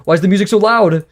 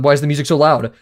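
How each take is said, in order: First: Louder exasperated repeat. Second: Said in the usual way. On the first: Real, not acted. Streamer annoyed by loud music.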